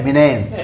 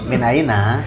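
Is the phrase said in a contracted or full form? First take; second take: contracted; full. First: It is said quickly, contracted into two syllables. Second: It is said slowly in full, with three syllables. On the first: This is the colloquial dialect form. "dibaca cepat jadi minen" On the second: This is the standard formal form.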